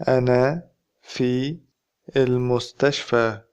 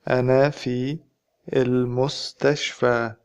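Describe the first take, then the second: No difference in how they are said.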